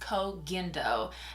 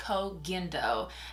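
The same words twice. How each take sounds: First: The name is said the newly learned way. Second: The name is said the newly learned way.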